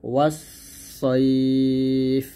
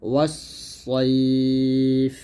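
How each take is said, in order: Both takes have the same delivery.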